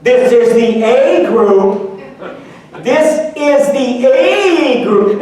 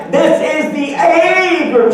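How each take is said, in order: First: Slow announcing. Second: Louder each time. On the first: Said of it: "she says it three times". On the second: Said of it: "She gets louder every time". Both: Retold or imitated.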